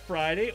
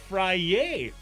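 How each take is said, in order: First: The word is pronounced in the ordinary way. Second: The word is pronounced in a trendy, altered way.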